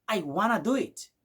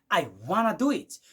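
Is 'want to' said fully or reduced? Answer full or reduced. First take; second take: reduced; reduced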